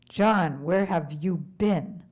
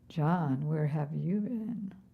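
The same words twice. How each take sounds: First: It sounds reproachful, scolding John for going. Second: It sounds knowing, as if already aware.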